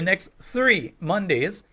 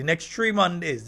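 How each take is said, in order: First: Three begins with a clear th sound. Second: Three begins with a plain t sound. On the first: The speaker calls it right. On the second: The speaker calls it wrong.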